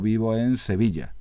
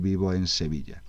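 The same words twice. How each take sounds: First: The s in Sevilla sounds like th. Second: The s in Sevilla sounds like s. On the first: The speaker uses a southern ceceo pronunciation. "en vez de pronunciar como S los sonidos S y C, pues lo que se pronuncian como C" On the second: The speaker uses the standard distinguishing pronunciation. "en vez de decir"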